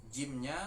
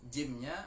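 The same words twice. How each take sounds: Both takes have the same delivery.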